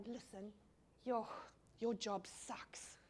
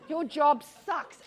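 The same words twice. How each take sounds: First: Slow, softer, leaning in to share a secret; a hush of sympathy for an airport worker; confiding quietly. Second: Louder, laughing, with a grin; blurting it out with a laugh; laughing outright. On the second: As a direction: let it burst out laughing. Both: Retold or imitated. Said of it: "To say to someone".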